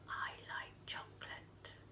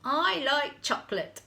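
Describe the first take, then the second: First: It is said very quietly. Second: It is said at normal loudness.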